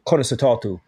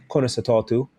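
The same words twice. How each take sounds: First: Conna sa tátu said in Irish, stress on Conna; Irish greeting. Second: Conna sa tátu again in Irish, rising at the end; Irish greeting repeated. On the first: Teaching a friend the Irish greeting, Irish pronunciation. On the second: Repeating the Irish greeting for a friend, rising tune. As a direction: echo Conna sa tátu with a lift on tátu. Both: Shown as a demonstration. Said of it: "to say in Irish".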